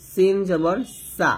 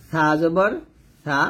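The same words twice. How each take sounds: First: সিন জবর সা with a clear sharp s; thin hissed s. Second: সা জবর সা with lisped th for each স; tongue on upper teeth. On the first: Teacher repeating for learners, সা with thin s. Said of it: "নিচে দাঁতের সাথে লাগিয়ে পাতলা করে". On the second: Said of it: "জিহ্বার আগাটা উপরে দাঁতে লাগবে". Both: Shown as a demonstration.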